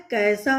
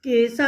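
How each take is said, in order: First: कैसा said with an open ai vowel; correct spelling. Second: केसा said with a plain short e sound; wrong spelling read out. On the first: Teacher giving children the correct कैसा with an open ai vowel. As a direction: read कैसा as kaisa with an open ai. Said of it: "जबकि होता क्या है?". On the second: Teacher reading the misspelt word केसा to the class as kesa. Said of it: "क पर ए की मात्रा केसा". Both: Shown as a demonstration.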